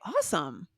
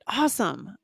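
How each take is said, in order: First: It is said calmly without extra breath. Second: It is said with strong breath and energy. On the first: "you don't have to have the the breath that I put into awesome" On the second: "you can really put your your breath behind it"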